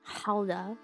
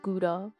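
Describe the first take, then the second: First: The word begins with a harsh guttural throat sound. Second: The word begins with a plain hard g sound. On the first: The speaker calls it right. "that's Halda" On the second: The speaker calls it wrong. "it's not pronounced Gouda"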